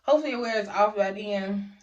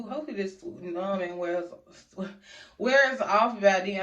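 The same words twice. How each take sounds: First: Careful slurred numb speech; numb mouth. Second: Words slurred from numbness; numb mouth. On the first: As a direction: push words past a numb lip. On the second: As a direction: talk through a numb mouth. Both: Real, not acted. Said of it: "I can't even talk".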